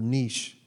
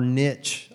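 First: It is said in a standard English accent. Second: It is said in a Texan accent.

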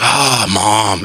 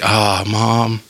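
First: It sounds annoyed and dismissive. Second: It sounds warm and affectionate.

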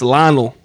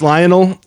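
First: The name is said the Southern way. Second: The name is said the Boston way. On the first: The person is from the South. "if he's from the South, it's Lionel" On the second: The person is from Boston. "if he's from Boston, it's Lionel"

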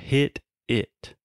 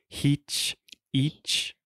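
First: Both words have a short, lax I vowel. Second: The vowels are long and tense, like heat. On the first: The speaker calls it right. "this is the I sound 2 times consecutively" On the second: The speaker calls it wrong. "I hear a lot of Brazilians saying hit each"

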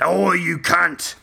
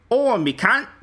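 First: The pitch falls at the end. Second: The pitch rises at the end. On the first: It is said as a genuine, hostile insult. "when it's the mean version, it's... It's down" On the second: It is said affectionately, as a friendly insult. "That's the friendly version. If it goes up, they do their usual Aussie up talk"

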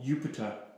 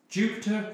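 First: The word begins with a Y sound. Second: The word begins with a J sound. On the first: This is the original Latin pronunciation. "would have originally been called" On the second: This is the modern pronunciation. "the modern day J sound"

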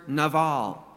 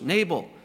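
First: The name has its Hebrew pronunciation. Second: The name has its English pronunciation. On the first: "this word for fool is the Hebrew word naval" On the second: "That's how we pronounce it in English"

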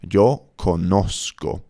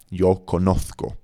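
First: The z sounds like an s. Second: The z sounds like a th.

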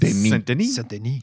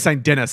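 First: The name is pronounced in a French way. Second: The name is pronounced in an English way.

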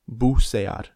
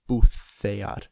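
First: It is said in a non-Spain Spanish accent. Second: It is said in a Spain Spanish accent.

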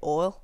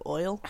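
First: The word is said with a regional dialect pronunciation. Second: The word is said with a standard pronunciation. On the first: This is how some customers say it. "a few customers that say oil" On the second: This is the usual way to say it. "instead of oil"

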